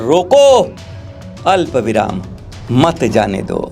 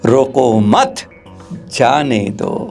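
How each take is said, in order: First: The pause comes right after 'roko'. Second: The pause comes right after 'mat'. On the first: Stop them, do not let them go. "रोको, अल्प विराम" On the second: Do not stop them, let them go. "जरा सा अल्प विराम थोड़ा देर में हो गया"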